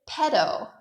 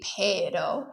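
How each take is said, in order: First: The first vowel is a single flat eh sound. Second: The first vowel glides between two vowel sounds. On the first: "people get lazy and often just pronounce it pedo" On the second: "it's supposed to be pedo"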